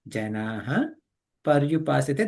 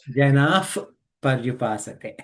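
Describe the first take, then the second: First: The final sound is an H plus echo vowel. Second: The final sound is like an F before P. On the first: "if you are reading it as ye janaha paryupasate, that is correct" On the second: "you have to say janah paryupasate"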